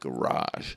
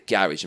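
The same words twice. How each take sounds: First: Garage is said with an American pronunciation. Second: Garage is said with the speaker's own pronunciation. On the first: "how do you American people say it?" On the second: "we said the garage, mate"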